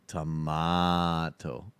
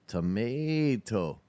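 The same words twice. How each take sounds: First: "Tomato" drawn out low as "tuh-MAAAH-to"; slow, lower "Tomato" with a long "ah"; British pronunciation. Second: "Tomato" drawn out as "tuh-MAAAY-to"; American pronunciation. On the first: Streamer joking about pronunciations, low slow "tuh-MAH-to" for "Tomato". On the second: Streamer joking about pronunciations, slow "tuh-MAY-to" for "Tomato". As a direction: stretch the "ay" in "Tomato", slowly. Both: Shown as a demonstration. Tomato said two ways, contrasted.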